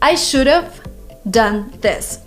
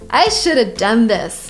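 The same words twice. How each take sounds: First: "Should have" is said fully, as two words. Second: "Should have" is reduced to "shoulda". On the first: The speaker calls it wrong. "they would teach us to say" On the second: The speaker calls it right. "So what is an easy way? Shoulda"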